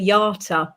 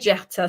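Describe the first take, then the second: First: The name begins with a Y sound. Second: The name begins with a J sound. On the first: This is the name's real pronunciation. "It's actually Yata" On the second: This version is easier for others to spell. "I actually do say Jata sometimes because it's easier for people to spell afterwards"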